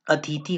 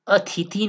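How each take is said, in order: First: अतिथि said at normal pace as the right spelling; teacher gives अतिथि plainly as the correct version; the correct form. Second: अतिथि said slowly as the wrong spelling to avoid; teacher sounds out अतिथि slowly, marking it wrong; the wrong form. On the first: Hindi teacher confirming the right अतिथि to students, plainly. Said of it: "अतिथि होता है". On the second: Hindi teacher showing students the wrong अतिथि, slowly. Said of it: "अतिथि नहीं होता". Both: Shown as a demonstration.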